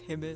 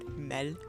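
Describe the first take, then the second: First: The word is short with a quick L. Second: The word is drawn out with a long L. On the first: The speaker calls it right. "a double consonant makes the word shorter, so it's Himmel" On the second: The speaker calls it wrong. "overpronounce the L and they kind of drag the word out"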